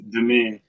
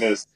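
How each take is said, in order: First: The name ends without any s sound. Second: The name ends with an audible s sound. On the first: The speaker calls it right. "It's Denis. ... Where's the S though?" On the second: The speaker calls it wrong. "not isn't Dennis. Like Dennis"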